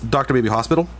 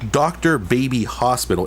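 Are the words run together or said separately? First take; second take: run together; separately. First: The three words are run together as one. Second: The three words are said as separate words. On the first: The speaker calls it right. "it's all one word" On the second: The speaker calls it wrong. "It's not"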